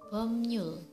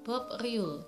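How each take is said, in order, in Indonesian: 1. Konsonan tengahnya adalah m diikuti n. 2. Konsonan tengahnya adalah b diikuti r. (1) "tapi yang benarnya adalah Bomnyul" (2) "harusnya dibaca Bob Riul"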